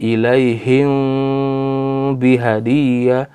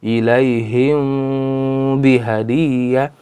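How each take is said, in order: The two takes are said the same way.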